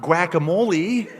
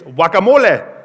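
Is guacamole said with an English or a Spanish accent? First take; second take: English; Spanish. First: It is said with English-style vowels and rhythm. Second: It is said with Spanish-style vowels and rhythm. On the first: The speaker calls it wrong. "It's not" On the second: The speaker calls it right.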